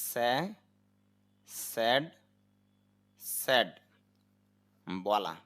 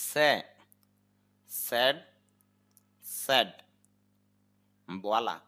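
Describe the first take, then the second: Both takes have the same delivery.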